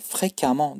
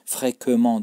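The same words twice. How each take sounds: First: The ending is pronounced with an 'a' sound. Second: The ending is pronounced with an 'e' sound. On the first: The speaker calls it right. "fréquemment diye okunuyor. Bakın amant diye okunuyor burada" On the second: The speaker calls it wrong. "Fréquemment diye okunmuyor"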